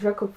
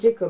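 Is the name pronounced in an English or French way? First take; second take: French; English. First: The name is pronounced the French way. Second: The name is pronounced the English way. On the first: This is how it looks when written. The speaker calls it wrong. "C'est écrit Jacob, donc Jacob Fry, comme ça" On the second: The character is English, so this respects him. The speaker calls it right. "Mais ça se dit Jacob. Hein. Le mec est anglais"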